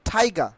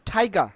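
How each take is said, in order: The two takes are said the same way.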